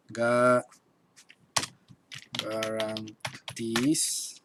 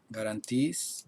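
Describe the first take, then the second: First: "garantiz" very slowly, in drawn-out pieces with pauses; syllable by syllable. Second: Said in the usual way. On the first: Shown as a demonstration. Teacher writing out the word for students, slow syllable by syllable. Writes the word out while saying it.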